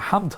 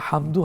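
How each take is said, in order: First: The word ends on the d consonant. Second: The word ends with a final u vowel. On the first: "না হামদ হবে, দুইটাই হবে" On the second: "হামদু হবে"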